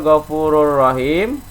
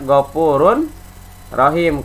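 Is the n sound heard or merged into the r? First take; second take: merged; heard. First: The n merges into a doubled r sound. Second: The n sound is clearly pronounced before r. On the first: The joined form read by the rule. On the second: The words read separately.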